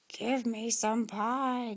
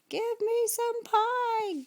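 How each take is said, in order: First: It is sighed softly. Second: It is bawled loudly.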